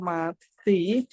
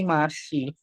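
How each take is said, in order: First: The middle consonant sounds like t. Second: The middle consonant sounds like s. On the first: The speaker calls it wrong. "bukan dibaca mati" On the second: The speaker calls it right. "dibacanya menjadi masih"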